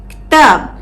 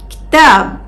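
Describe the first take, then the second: No difference in how they are said.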